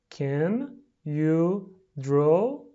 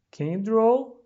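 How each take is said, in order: First: Very slow, each word separate and rising. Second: Said in the usual way. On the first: Shown as a demonstration. Teacher pronouncing for pupils at home, word by word. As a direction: stretch out every word with a gap after it.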